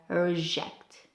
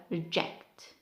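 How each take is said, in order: First: RE-ject, RE stressed; noun stress, first syllable. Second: Re-JECT, short RE; verb stress, second syllable. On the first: Teacher giving the noun, stressed on first syllable. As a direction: stress RE in REJECT. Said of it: "For noun we have". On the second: Teacher giving the verb, stressed on second syllable. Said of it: "and for verb we have". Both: Shown as a demonstration.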